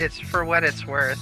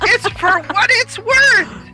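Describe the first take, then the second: First: It is said in a flat, unexcited tone. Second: It is said in a lively, excited tone. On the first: The speaker calls it wrong. "Jeez, sound a little excited" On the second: The speaker calls it right. "There you go"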